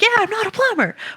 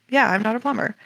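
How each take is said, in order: First: It is said in an upbeat, very positive tone. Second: It is said in a flat, neutral tone.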